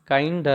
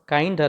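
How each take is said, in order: Both takes have the same delivery.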